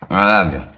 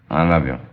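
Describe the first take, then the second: First: It is said in a sincere, heartfelt way. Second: It is said in a casual, offhand way. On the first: The speaker calls it right. "That's my pal" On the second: The speaker calls it wrong. "that's too casual"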